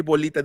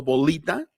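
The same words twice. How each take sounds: First: Said in the usual way. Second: Bolita with a dark, back English l instead of the clear Spanish one. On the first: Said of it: "en vez de decir bolita". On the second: Shown as a demonstration. Teacher showing an allophone of L, dark English l. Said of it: "así con la L del inglés".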